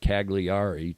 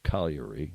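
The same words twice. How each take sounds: First: It is read out letter by letter, English style. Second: It is said the local way, not as spelled. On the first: The speaker calls it wrong. "It looks like Cagliari to Anglos" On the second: The speaker calls it right. "but it's pronounced Cagliari"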